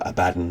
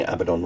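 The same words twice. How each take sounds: First: "Abaddon" with the stress on the second syllable, uh-BAD-un; alternative pronunciation of Abaddon. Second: "Abaddon" with the stress on the first syllable, AB-uh-don; first pronunciation of Abaddon. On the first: Offering the other way to say it, "Abaddon" as uh-BAD-un. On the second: Offering one way to say the name, "Abaddon" as AB-uh-don. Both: Shown as a demonstration. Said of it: "however you wanna pronounce his name".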